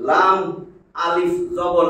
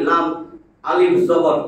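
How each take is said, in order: The two takes are said the same way.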